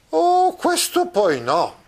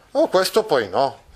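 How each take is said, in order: First: Very high, slow, drawn-out protest; Don Quixote exclaiming. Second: Oh, questo poi no. repeated in near-usual voice, slight rise; a light echo of Don Chisciotte; mild retelling of the protest. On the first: Acted. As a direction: cry out in outrage at the mistake. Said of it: "esclamò a questo punto Don Chisciotte". (esclamazione acuta e lenta di Don Chisciotte) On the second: Retold or imitated. (ripetizione leggera, quasi normale)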